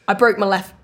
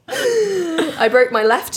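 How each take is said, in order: First: It is said in the speaker's normal voice. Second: It is said in an Irish accent. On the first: The speaker calls it wrong. "I'll do the real normal, my voice" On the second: The speaker calls it right. "Sounds wrong, not in an Irish accent"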